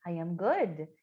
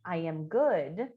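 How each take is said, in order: First: Said in the usual way. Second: Slow model phrase. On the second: Shown as a demonstration. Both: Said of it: "Então, a primeira".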